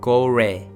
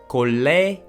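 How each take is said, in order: First: The middle consonant is like an English R. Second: The middle consonant is like an English L. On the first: "doesn't correspond to English L nor R" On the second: "it doesn't sound 골래"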